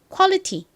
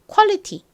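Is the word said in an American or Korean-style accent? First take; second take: Korean; Korean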